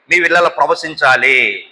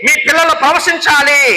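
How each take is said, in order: First: Said in the usual way. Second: High-pitched preacher's cry; impassioned proclamation. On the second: Real, not acted. Preacher declaring promise over congregation's children, high fervent call.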